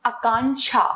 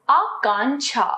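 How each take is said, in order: First: Short opening vowel in आकांक्षा, "a-kaanksha"; mispronounced आकांक्षा. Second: Long opening आ in आकांक्षा; correct आकांक्षा. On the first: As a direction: begin आकांक्षा with a brief अ. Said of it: "अशुद्ध". (आकांक्षा का अशुद्ध उच्चारण, छोटे अ से) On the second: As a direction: hold the first vowel of आकांक्षा, "aa-kaanksha". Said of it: "इसका शुद्ध है". (आकांक्षा का शुद्ध उच्चारण, लंबे आ से) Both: Shown as a demonstration.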